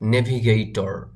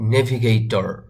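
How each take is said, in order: First: The final r sound is clearly pronounced. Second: The final r sound is clearly pronounced.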